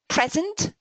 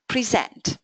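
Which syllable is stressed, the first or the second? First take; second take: first; second. First: The stress is on the first syllable. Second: The stress is on the second syllable. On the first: It names a thing. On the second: It names an action.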